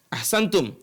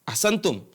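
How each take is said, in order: No difference in how they are said.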